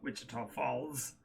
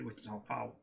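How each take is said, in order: First: Falls is said with a clear L sound. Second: Falls is said with no L sound. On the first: This is how outsiders say it. "they don't say Wichita Falls" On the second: This is how people who live there say it. "They say Wichita Falls. ... there's no L's in that word. It's F A W E S"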